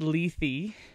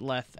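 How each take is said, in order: First: The word ends on a vowel sound. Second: The word ends on a consonant sound. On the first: The speaker calls it right. "it is pronounced Lethe" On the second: The speaker calls it wrong. "I've always pronounced it Leth"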